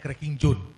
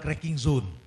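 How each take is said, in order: First: It is said in a Medan accent. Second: It is said in a standard accent.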